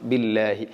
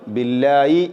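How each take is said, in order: First: The final syllable uses an h sound. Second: The final syllable uses a y sound. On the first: The speaker calls it right. "ബില്ലാഹി എന്ന് തന്നെ ഉച്ചരിക്കണം" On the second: The speaker calls it wrong. "ഹാഇനെ ഇവിടെ യാ ആയിക്കൊണ്ട് ഉച്ചരിക്കുന്ന ആളുകളുണ്ട്. ഇതും ശരിയല്ല"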